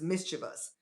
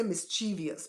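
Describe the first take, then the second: First: "mischievous" said as MIS-chuh-vus; standard pronunciation of mischievous. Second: "mischievous" said as mis-CHEE-vee-us; common mispronunciation of mischievous. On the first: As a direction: stress the first syllable of "mischievous", three syllables only. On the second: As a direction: stress the middle of "mischievous" and add an extra "ee" before the ending. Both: Shown as a demonstration. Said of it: "but the word is mischievous".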